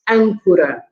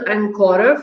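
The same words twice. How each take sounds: First: The stress falls on the first syllable. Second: The first syllable is not stressed. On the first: The speaker calls it right. "but it's ancora" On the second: The speaker calls it wrong. "it's not ancora"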